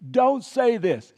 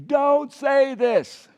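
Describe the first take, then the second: First: Don't stressed, slow and loud; call to repeat. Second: Very slow loud Don't say this; louder call. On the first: Preacher leading congregation to repeat, slow loud call. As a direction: lead the room in a slow chant. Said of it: "Can you just repeat after me?". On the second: Preacher urging congregation to repeat, slow shout. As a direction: push it harder so they answer back. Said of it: "Repeat after me again". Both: Shown as a demonstration.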